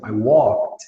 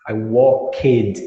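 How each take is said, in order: First: The ending is said without an extra vowel. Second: The ending is said with an extra vowel. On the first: The speaker calls it right. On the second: The speaker calls it wrong.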